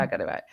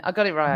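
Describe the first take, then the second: First: Much lower and much softer, under the breath; a low, soft aside to yourself; quiet repeat. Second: Said in the usual way. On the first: Shown as a demonstration. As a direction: mutter it again to yourself, barely voiced.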